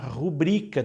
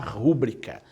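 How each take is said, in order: First: The stress falls on the second syllable. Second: The stress falls on the first syllable. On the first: The speaker calls it right. "é o correto" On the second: The speaker calls it wrong. "Não é rúbrica"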